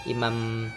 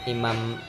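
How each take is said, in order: No difference in how they are said.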